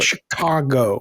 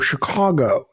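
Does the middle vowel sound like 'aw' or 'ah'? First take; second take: ah; aw. First: The middle vowel is an 'ah' sound. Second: The middle vowel is an 'aw' sound. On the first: "I just say" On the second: "It's like a aw"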